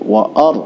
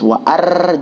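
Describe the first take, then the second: First: The r is pronounced heavy and full. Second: The r is pronounced thin and light. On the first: The speaker calls it right. "tapi wa ar" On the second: The speaker calls it wrong. "jangan dibaca seperti tifis wa ar"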